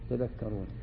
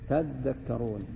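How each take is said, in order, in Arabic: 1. الحرف الأوسط مفرد، بلا حركة مدّ. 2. الحرف الأوسط مشدّد ويُطال نطقه. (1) "والسكون" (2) "بالتشديد"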